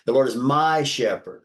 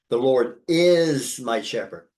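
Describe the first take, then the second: First: The word "my" carries the strongest stress. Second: The word "is" carries the strongest stress. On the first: The shepherd is a personal one. "what you emphasized when you said my there" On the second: It is certain that he is the shepherd. "Like he is my shepherd. There's assurance here"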